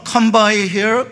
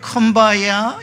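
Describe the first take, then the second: First: The last word is said as 'here'. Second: The last word is said as 'ya'. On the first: This is the original English phrase. "영어의 come by here 라는 어, 발음이" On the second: This is how the phrase came to be heard and sung. "흑인들의 귀에 들어가서 ... 이렇게 된 겁니다"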